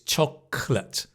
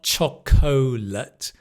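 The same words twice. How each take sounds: First: A middle syllable is dropped, squeezing the word. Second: Every syllable of the word is pronounced. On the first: The speaker calls it right. "it's chocolate" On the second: The speaker calls it wrong. "So it's not chocolate"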